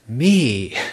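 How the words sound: The word is said forcefully and insistently. A coarse, self-centred way of referring to oneself. "Look at me. That's more like Gu"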